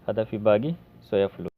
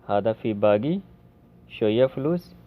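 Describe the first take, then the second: First: The word after 'bagi' starts with 's'. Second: The word after 'bagi' starts with 'sh'. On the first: "कोई सोया बोलता है" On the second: "कोई शोया बोलता है"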